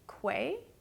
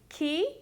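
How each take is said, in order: First: The name is said as its spelling suggests. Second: The name is said differently from its spelling. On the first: This is how a reader would naturally say it. "the way you'd pronounce it if you were reading it correctly" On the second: This is how the brand itself says it. "I've confirmed the way to pronounce the brand is"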